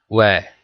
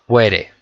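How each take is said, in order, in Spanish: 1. Se dice con sonidos ingleses. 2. Se dice con sonidos de estilo español.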